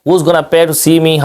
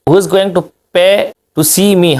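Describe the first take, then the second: First: The words are contracted and reduced together. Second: Every word is said in its full form.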